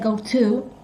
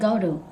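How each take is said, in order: First: The word 'to' has a clear, full T sound. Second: The word 'to' is softened to a D-like sound. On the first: "He didn't say go to" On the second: "he said go to"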